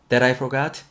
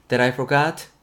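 Both takes have the same delivery.

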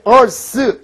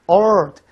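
First: The final th sound is clearly pronounced. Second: The final th sound is weakened, nearly dropped. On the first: "보통 이제 우리가 발음할 때 earth 이렇게 얘기하지 않습니까?" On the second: "미국식 발음할 때 earth, th 발음 죽어요"

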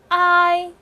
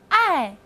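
First: The pitch stays high and level. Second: The pitch falls sharply from high to low. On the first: "一声I" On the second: "四声，爱"

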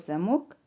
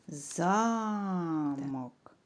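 First: The stress is on the second syllable. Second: The stress is on the first syllable. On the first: "Який склад наголошується? Другий склад" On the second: "промовимо це слово з іншим наголосом"

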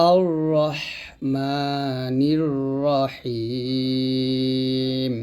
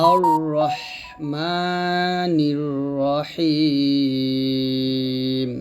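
The two takes are said the same way.

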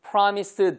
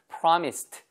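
First: The word ends with a voiced d sound. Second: The word ends with a voiceless t sound. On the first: The speaker calls it wrong. "promised 더 되게 어렵거든요" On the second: The speaker calls it right. "트 발음이 더 어울립니다 / 이 발음이 더 쉽죠"

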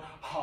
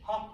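First: Each ha starts with a big, breathy H. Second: Each ha starts with a light, small H.

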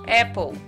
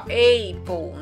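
First: The first vowel is a short a sound. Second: The first vowel sounds like the letter name A. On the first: The speaker calls it right. "apple, né" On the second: The speaker calls it wrong. "Não vai ser aqui, ó"

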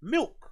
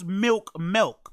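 First: The word is pronounced in the ordinary, standard way. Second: The word is pronounced in an odd, nonstandard way. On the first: This is how the word is spelled. The speaker calls it right. "when it's actually phonetically spelled milk" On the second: This imitates someone else's pronunciation. The speaker calls it wrong. "Why do you pronounce milk"

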